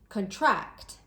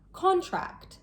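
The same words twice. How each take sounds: First: The stress is on the second syllable. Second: The stress is on the first syllable. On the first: It is a verb meaning to become smaller. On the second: It is a noun meaning a formal agreement.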